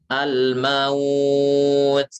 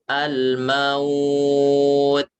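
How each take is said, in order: The two takes are said the same way.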